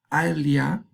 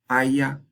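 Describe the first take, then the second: First: The middle consonant is an L-like palatal sound. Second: The middle consonant is a Y sound. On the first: "alia con lateral palatal" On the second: "Ahora estas dos palabras se pronuncian aya"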